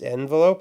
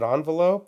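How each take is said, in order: First: The first syllable begins with an 'e' sound. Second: The first syllable begins with an 'on' sound. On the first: "It's an e" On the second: "Why is it an on?"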